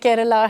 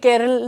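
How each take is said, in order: First: The name ends with a full 'a' vowel. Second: The name ends on the final consonant. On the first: The speaker calls it right. "केरला है" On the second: The speaker calls it wrong. "केरल नहीं है"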